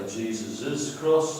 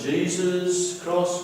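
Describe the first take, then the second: First: "Jesus's" said with an extra -es syllable; mock wrong form, slow. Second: Said in the usual way. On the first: Shown as a demonstration. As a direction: slowly demo the wrong "Jesus's cross". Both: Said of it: "we don't say Jesus's cross".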